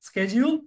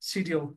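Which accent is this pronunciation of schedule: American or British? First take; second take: American; British. First: It is said the American way, starting with sk. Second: It is said the British way, starting with sh. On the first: "একটা হচ্ছে American" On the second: "একটা হচ্ছে British"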